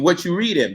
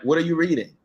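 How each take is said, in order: First: The word 'are' is left out entirely. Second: The word 'are' is said in full. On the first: The speaker calls it right. "it needs to be what you reading" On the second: The speaker calls it wrong. "that ain't the way you need to say it"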